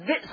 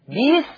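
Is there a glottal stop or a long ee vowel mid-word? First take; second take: glottal stop; long ee. First: It has a glottal stop in the middle. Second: It has a long ee vowel in the middle.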